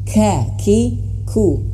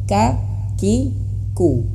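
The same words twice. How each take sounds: First: The k sounds are released with audible breath. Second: The k sounds are released without audible breath. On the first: "Pendapat pertama itu harus mengalirkan angin juga" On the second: "tidak mengeluarkan angin, biasa saja"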